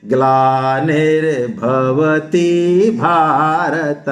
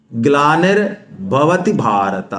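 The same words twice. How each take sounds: First: ग्लानिर्भवति quick, then भारत drawn out slowly; correct recitation. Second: ग्लानिर्भवति भारत said slowly as in the famous serial; film-style recitation. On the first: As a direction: clip ग्लानिर्भवति short and hold भारत. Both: Shown as a demonstration. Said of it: "जबकि हम क्या बोलते हैं".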